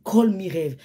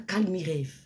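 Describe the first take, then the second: First: It is said as three syllables, call-me-rêve. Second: It is said as two syllables, calme-rêve. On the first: The speaker calls it right. "C'est Call Me Rêve" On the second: The speaker calls it wrong. "Ce n'est pas Calme Rêve"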